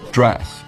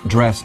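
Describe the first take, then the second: First: The vowel is said lower in the mouth. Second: The vowel is said higher in the mouth.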